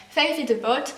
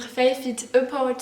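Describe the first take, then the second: First: Said in the usual way. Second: Slow title said in a keen English accent; carried away, giving the title an English accent. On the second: Real, not acted. Vlogger reading her new book's title, in an eager English accent. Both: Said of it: "Oula, mon accent".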